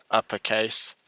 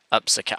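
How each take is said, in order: First: Said in the usual way. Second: "Uppercase" said with an s sound, as "upsacase"; misread typo. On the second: Real, not acted. Coder reads back his habitual typo, "Uppercase" as "upsacase". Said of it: "I always write that".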